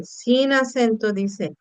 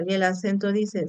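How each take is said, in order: First: "sin acento dice" said slowly and deliberately; unaccented monosyllable demo. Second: "el acento dice" said slightly softer, naming the accented form; a teacher demonstrating the accented word "dice"; accented monosyllable demo. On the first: Teacher contrasting the unaccented word for students, slowly. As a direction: spell out the unaccented version, slowly, for the class. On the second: Teacher showing students the accented monosyllable. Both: Shown as a demonstration.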